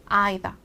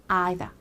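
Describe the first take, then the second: No difference in how they are said.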